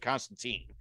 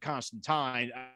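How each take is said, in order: First: The name is said the American way. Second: The name is said the British way. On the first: "us Americans pronounce it Constantine" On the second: "the British folk seem to pronounce it Constantine"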